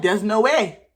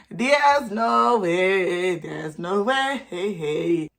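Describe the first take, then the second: First: Said in the usual way. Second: Very slow, stretched "no way"; drawn-out disbelief. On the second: Retold or imitated. Reacting to students cheating, slow exaggerated disbelief. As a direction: drag every word out in mock disbelief. Same words repeated, hugely drawn out.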